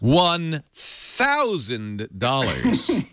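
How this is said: It is said in a put-on villain's voice.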